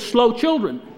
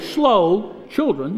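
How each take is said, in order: First: The two words run together without pause. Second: There is a pause between the words.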